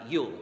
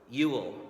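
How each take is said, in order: First: The name is said with one syllable. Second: The name is said with two syllables. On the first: "speed it up a little bit. So it sounds like it's just one syllable" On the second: "one had two syllables"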